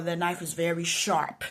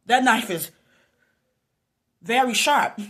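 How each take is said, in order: First: Said in the usual way. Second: "That knife is very sharp" loud, higher, broken by a long pause; emphatic repeat. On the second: Real, not acted. Warning herself about the knife, emphatic repeat.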